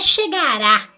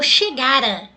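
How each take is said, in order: First: The stress is on the last syllable. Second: The stress is on the middle syllable. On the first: It refers to a future action. The speaker calls it wrong. "Não é chegará com acento. Chegará é futuro" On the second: It refers to a past action before another past one. The speaker calls it right. "Eu uso essa forma átona"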